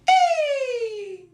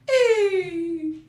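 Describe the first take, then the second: First: It is a joyful, celebrating exclamation. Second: It is a dismayed reaction to bad news.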